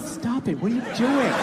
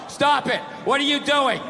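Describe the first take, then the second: First: It is said in a teasing, playful, flirty tone. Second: It is read out in a dull, flat tone.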